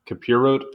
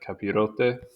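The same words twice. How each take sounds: First: The final E is silent. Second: The final E is pronounced as a syllable. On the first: The speaker calls it wrong. "it's not Capirote" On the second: The speaker calls it right. "I'm guessing the E is pronounced"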